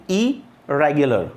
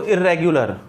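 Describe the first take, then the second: First: इरेगुलर said slowly with one light r, "i-re-gular"; correct single r. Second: इरेगुलर with a doubled r, "irr-regular"; wrong doubled r. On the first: Teacher models correct pronunciation, slow and clear. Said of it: "एक ही बार करें". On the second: Teacher mimics the common wrong way, doubled r. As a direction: stretch the r in इरेगुलर twice. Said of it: "इर नहीं, आप दो बार repeat नहीं करें". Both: Shown as a demonstration.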